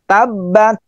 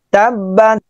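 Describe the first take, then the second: The two takes are said the same way.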